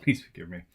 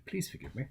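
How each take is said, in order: First: Sheepish laugh through please forgive me; laughing apology. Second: Softer, worn-out please forgive me; tired apology. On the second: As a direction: let it drop, too tired to push. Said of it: "I am tired". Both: Real, not acted.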